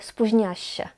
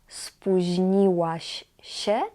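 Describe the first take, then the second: First: The 'ł' sound is dropped. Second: The 'ł' sound is clearly pronounced. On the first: "ale spóźniałaś się" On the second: "Nie spóźniłaś się"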